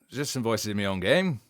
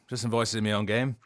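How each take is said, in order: First: It is said in a cheerful, bright tone. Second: It is said in a flatter, less cheerful tone. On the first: The speaker calls it wrong. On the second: The speaker calls it right.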